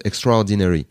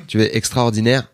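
First: "Extraordinary" in English, stressed on the second syllable; "Extraordinary" with a French-tinged English accent. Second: "extraordinaire" with French vowels, stress at the end; "extraordinaire" said the plain French way. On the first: Teaching the host an English word, says "Extraordinary" in English. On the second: Comparing languages for the host, "extraordinaire" in French. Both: Shown as a demonstration. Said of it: "c'est la même chose".

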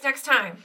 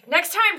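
First: Said in the usual way. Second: Rally the minion with a bright, raised "Next time"; emphatic promise. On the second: Shown as a demonstration. Player encouraging his skeleton minion, emphatic and raised.

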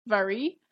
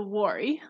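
First: "Vari" begun with a V sound. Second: "Wari" begun with a W sound. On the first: Podcaster gives the alternative pronunciation, "Vari" with V. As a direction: say "Vari" starting on a buzzed V. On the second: Podcaster names the tribe for listeners, "Wari" with W. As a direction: say "Wari" starting on a rounded W. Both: Shown as a demonstration. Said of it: "which can also be pronounced as".

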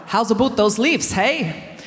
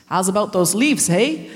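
First: Put-on Canadian accent. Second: A light Canadian accent, imitated. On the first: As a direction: redo the Canadian line. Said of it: "No, I haven't said that right". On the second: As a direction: mimic Canadian elders. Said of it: "managed to make this accent".

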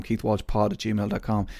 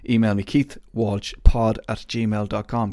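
First: Said in the usual way. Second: "keithwalshpod at gmail dot com" spelled out slow and louder; slow it down and project the address clearly; announcing the address. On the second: Shown as a demonstration. Host giving listeners his email, slow and emphatic. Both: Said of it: "I'm going for it".

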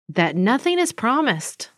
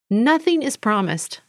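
First: Said in the usual way. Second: Nothing punched at the start, then falling; stress on nothing. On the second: Real, not acted. Reflecting on a lesson, repeating with stress on Nothing. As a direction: repeat it and lean hard on Nothing.

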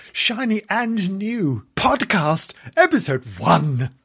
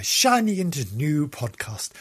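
First: Slow, loud, higher-pitched title announcement; announcer hype. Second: Said in the usual way. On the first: Acted. Host trumpets the first episode of a new podcast, announcer hype. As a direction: draw out the show title with big fanfare. Hammed-up repeat of show title.

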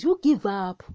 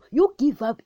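First: Said in the usual way. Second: Higher, louder call to give up; insistent repeat. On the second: Shown as a demonstration. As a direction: push the repeat up and out.

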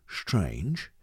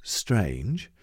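First: "strange" said lower and softer, rising; second take of "strange", softer and lower; strange, other way. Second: "strange" said low with a rising end; first take of "strange", dropped low and rising; strange, one way. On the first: Dialect coach contrasting a second "strange". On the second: Dialect coach demoing "strange" to the actor. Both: Shown as a demonstration. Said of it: "if I say".

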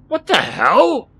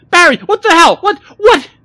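First: Loud, high, drawn-out startled gasp; shocked gasp. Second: Very high, loud panicked cry; horrified, near sobbing. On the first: Rodney faces a shadowy figure, gasping in shock. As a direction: gasp it out slowly in alarm. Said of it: "Rodney managed to gasp". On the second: Millie backs away from Barry, horrified and shrieking. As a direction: shriek it, backing away aghast. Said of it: "She started sobbing and backed away from him". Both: A narrator's reading.

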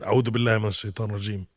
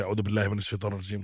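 First: Fast Arabic recitation; a hurried recitation; rushed protective prayer. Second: Fast, softer Arabic recitation; a hurried whispered-down recitation; rushed protective prayer. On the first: Shown as a demonstration. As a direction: rattle it off quickly. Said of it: "you translate". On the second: Retold or imitated. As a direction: rattle it off quickly to ward off evil. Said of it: "we start to panic".

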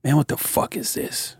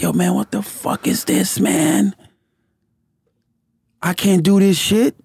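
First: Soft whispered what the fuck; hushed, disbelieving mutter; whispered disbelief. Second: Pitched-up exasperated quote; fed up, half laughing at himself; higher, exasperated. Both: Retold or imitated. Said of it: "I was like".

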